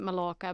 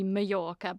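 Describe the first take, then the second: First: The name has an English pronunciation. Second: The name has a Spanish pronunciation. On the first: "A lot of English people pronounce it Mallorca" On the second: "technically in the Spanish language it would be Mallorca"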